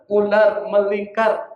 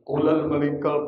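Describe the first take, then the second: First: The R sounds are pronounced as clear R sounds. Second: The R sounds are replaced with L sounds. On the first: It teaches the child the proper pronunciation. The speaker calls it right. "Ajarin yang benar" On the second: It imitates baby talk used with small children. The speaker calls it wrong. "di R itu kita ganti jadi L"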